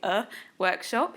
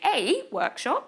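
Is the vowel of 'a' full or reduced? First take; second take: reduced; full. First: The word 'a' has a reduced uh vowel. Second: The word 'a' has a full vowel. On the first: The speaker calls it right. "you say a workshop" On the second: The speaker calls it wrong. "You don't say a workshop"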